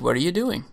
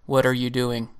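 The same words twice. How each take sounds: First: It is said in a light, curious tone. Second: It is said in a flat monotone. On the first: "kind of a curious just inquiry" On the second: "I'm going to say this as monotone as possible"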